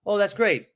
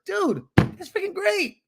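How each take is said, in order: First: Unenthused, falling response; downswing tone. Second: Very high, drawn-out delight; slow, thrilled exclamation high in pitch; upswing tone. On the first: Coach showing what not to say to a friend, downswing tone. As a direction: drop away at the end, less than thrilled. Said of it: "Or don't say". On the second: Agent to a friend who has a realtor, upswing tone. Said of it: "how to have an upswing in your tone". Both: Shown as a demonstration.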